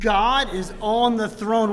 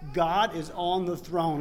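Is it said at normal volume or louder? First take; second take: louder; normal. First: It is said louder, with conviction. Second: It is said at normal volume.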